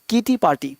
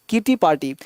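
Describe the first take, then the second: No difference in how they are said.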